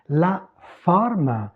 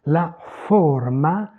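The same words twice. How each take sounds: First: "La forme" with an open o; open French o. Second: "La forma" slow, with a closed o; closed Italian o. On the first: Teacher repeating the corrected French word, open o in "La forme". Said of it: "c'est ouvert en français". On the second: Teacher repeating the Italian counterpart, closed o in "La forma". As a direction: round the o of "forma", final a sounded. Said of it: "c'est fermé en italien". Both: Shown as a demonstration.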